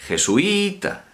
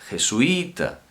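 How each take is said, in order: No difference in how they are said.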